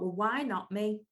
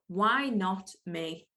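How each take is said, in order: First: Said in the usual way. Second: Slow, weighty repeat of "Why not me?"; slow, deliberate. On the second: Shown as a demonstration. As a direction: let "Why not me?" sink in slowly.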